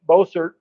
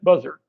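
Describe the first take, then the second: First: The name is said as spelled, Bossert. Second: The name is said like the bird, Buzzard. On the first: This is the real German name. "His real name was B O S S E R T" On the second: This is how locals said the name. "everybody it pronounced it Buzzard"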